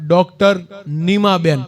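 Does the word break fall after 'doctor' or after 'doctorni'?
after doctor. The break comes right after 'doctor'. A doctor named Nima. The speaker calls it right. "બહાર board માર્યું હતું"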